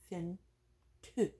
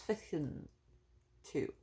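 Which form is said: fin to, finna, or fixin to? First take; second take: fin to; fixin to. First: The first word is shortened to fin. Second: It is said as two full words, fixin to.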